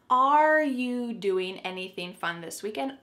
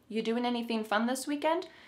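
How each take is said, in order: First: The question starts with a clear 'are'. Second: The question starts directly with 'you'. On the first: The question sounds more formal. "Should there be another word? Yep" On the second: The question sounds more casual. "we're gonna start this question with the word you"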